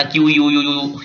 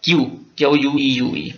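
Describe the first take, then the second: First: Spelling out क्यू यू यू यू letter by letter, as the wrong way to read it; क्यू यू यू यू spelled as the wrong version. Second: क्यू, then क्यू यू ई यू ई spelled letter by letter, as the right way; teacher spelling क्यू यू ई यू ई correctly. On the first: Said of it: "इसको ये नहीं पढ़ना". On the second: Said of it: "इसको पढ़ना है". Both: Shown as a demonstration.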